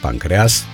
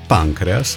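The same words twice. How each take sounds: First: The stress is on a later syllable. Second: The stress is on the first syllable. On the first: The speaker calls it right. "în loc de" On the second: The speaker calls it wrong. "anomalii de accentuare"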